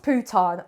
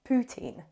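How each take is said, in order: First: The word ends with a nasal 'un' sound. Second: The word ends with an 'een' sound. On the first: The speaker calls it wrong. "it's not pronounced poutin" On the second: The speaker calls it right. "the famous dish"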